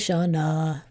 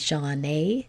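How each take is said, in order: First: The final vowel is a weak 'uh' sound. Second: The final vowel is a full 'ay' sound. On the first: "but we say" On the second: "it should be"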